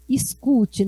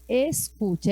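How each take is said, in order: First: The word ends with an i sound. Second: The word ends with an e sound. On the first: This is how people of the region speak. "é com i" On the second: This is the standard form. "não é escute"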